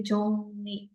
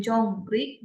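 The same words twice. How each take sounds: First: "jong ni" with N replacing the R; R becomes N. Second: "jong ri" with the R kept; as written. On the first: Teacher showing students how it is read, "jong ni" with an N. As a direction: say "jong ni", second syllable starting on N. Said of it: "bacanya jadi jong ni". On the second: Teacher showing students the unchanged spelling, "jong ri" with an R. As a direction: say "jong ri" with R starting the second syllable. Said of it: "Jadi berubah dari jong ri, bacanya jadi jong ni". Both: Shown as a demonstration.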